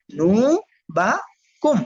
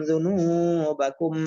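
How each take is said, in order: First: জুনুবাকুম broken into zu, nu, ba, kum; one syllable at a time. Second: দুনুবাকুম as one word, long নু; joined reading. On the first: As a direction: pause after each part of জুনুবাকুম. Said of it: "একটা একটা করে বলবেন". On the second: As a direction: flow through দুনুবাকুম, holding the নু. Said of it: "চালু করে দিলে reading হয়ে যায়". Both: Shown as a demonstration.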